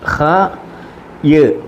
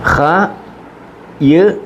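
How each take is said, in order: The two takes are said the same way.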